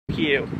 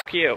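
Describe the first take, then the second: First: Sudden high-pitched curse; high yelp at the wind. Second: Said in the usual way. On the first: Real, not acted. Yelling at the wind.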